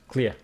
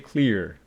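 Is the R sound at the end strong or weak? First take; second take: weak; strong. First: The final R sound is weakly pronounced. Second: The final R sound is strongly pronounced. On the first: "The R sound or the R sound is not that strongly pronounced" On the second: "you're American, you say clear"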